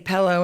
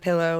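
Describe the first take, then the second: First: The first vowel sounds like 'e' in 'pell'. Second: The first vowel sounds like 'i' in 'pill'. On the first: The speaker calls it wrong. "people who say pillow instead of" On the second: The speaker calls it right. "there's no E in the word pillow"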